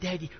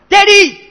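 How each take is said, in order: First: The word is said softly and gently. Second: The word is cried out loudly.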